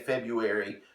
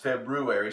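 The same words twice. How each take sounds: First: The word has no r sound after the b. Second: The word has an r sound after the b. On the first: The speaker calls it wrong. "I always want to say February, but it's not" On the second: The speaker calls it right. "It's February"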